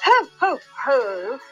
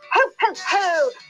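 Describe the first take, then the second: First: It is said plainly, with little pep. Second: It is said with extra jolly pep.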